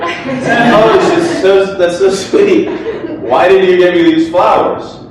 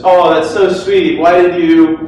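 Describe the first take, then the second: First: Put-on high, gushing girlfriend voice with a giggle; imitating girlfriend. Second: Mock sweet girlfriend voice; imitating girlfriend. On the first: Speaker redoes girlfriend getting flowers, high and gushing. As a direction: coo over the flowers, delighted. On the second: Speaker imitates girlfriend receiving flowers, mock sweet. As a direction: gush over the flowers like her. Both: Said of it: "sorry, that's not how she really sounds".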